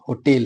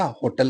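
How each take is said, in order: First: होटेल as "ho-TEL", weight on the T; stress on second syllable. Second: होटल said the everyday way, short unstressed "tal"; everyday pronunciation. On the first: Teacher showing correct pronunciation, होटेल stressed as "ho-TEL". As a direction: lean on the second syllable of होटेल, clear "e" vowel. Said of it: "इसका उच्चारण क्या होता है". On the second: Teacher showing the common pronunciation, होटल as "ho-tal". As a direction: say होटल with a neutral second vowel, "ho-tal". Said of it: "हम हमेशा होटल कहते हैं". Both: Shown as a demonstration.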